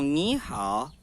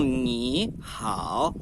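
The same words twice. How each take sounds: First: "ni hao" with "ni" rising and "hao" low; right tones. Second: "ni hao" with two low dipping tones; wrong tones. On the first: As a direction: say "ni hao" the native way, "ni" lifted. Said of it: "As pessoas falam". ("ni hao" certo, "ni" subindo) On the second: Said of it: "as pessoas não falam". ("ni hao" errado, dois terceiros tons) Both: Shown as a demonstration.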